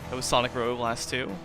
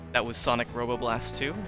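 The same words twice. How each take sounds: First: The words are slurred and poorly articulated. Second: The words are clearly and carefully articulated. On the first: The speaker calls it wrong. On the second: The speaker calls it right.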